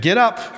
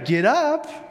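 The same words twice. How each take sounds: First: It is said as a plain, neutral command. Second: It is said in a bright, cheerful tone. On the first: "Some of you was just a simple command" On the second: "Some of you used it in a very cheerful, positive way"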